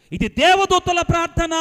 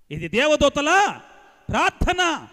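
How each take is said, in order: First: Loud declaration. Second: దేవదూతల drawn out slowly, each word weighed; slow emphatic repeat. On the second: Preacher repeating the line slowly to the congregation for emphasis. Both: Shown as a demonstration.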